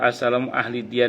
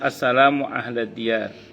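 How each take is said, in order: First: The word after assalamu ends in an i sound. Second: The word after assalamu ends in an a sound. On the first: The speaker calls it wrong. "ini kurang pas" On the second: The speaker calls it right. "Yang betul"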